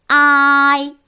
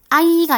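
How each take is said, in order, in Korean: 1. 첫 모음은 길게 늘여 발음합니다. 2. 첫 모음은 짧게 발음하고, 늘이지 않습니다. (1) "2번째 특징은 길게 발음하는 것입니다" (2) "아이가 아니라"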